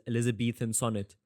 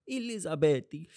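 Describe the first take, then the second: First: Said in the usual way. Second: Elizabethy said higher, with a t for th. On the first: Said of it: "when I hear Eliz-, Elizabethan sonnet". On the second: Shown as a demonstration. Joking to students, turning Elizabethan into Elizabethy. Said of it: "I always think of that".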